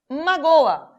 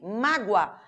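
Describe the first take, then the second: First: The final o and a form separate syllables. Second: The final o glides like u, one syllable. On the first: "Eu tenho vogal aqui, vogal aqui, não podem ficar na mesma sílaba" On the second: "Este O, galera, não é O, é U. Por quê? Porque ele é uma semivogal"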